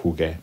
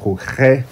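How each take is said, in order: First: Jugue ending in a hard "geh"; preserved hard g. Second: Juge with both consonants throaty, "khoo-khe"; unwanted soft-g sound. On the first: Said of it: "to buffer that sound". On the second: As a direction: rasp the g of juge like a Spanish j. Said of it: "We don't want that". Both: Shown as a demonstration.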